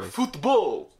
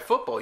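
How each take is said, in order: First: It is said with a Spanish-style pronunciation. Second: It is said with a plain English pronunciation.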